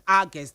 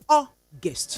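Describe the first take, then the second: First: The first vowel is an 'ar' sound. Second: The first vowel is an 'aw' sound. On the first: The speaker calls it wrong. "A R G U S T August like argument" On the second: The speaker calls it right. "That is the correct pronunciation of the month August"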